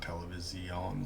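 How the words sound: The word is said the way Spanish says it. The speaker calls it wrong. "It's not television like you would say more in uh, Spanish"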